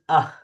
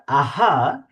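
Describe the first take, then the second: First: It ends in a short breathy h. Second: A full vowel follows the h sound. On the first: The speaker calls it right. "it is ah. We can see that the it is half" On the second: The speaker calls it wrong. "It is not aha"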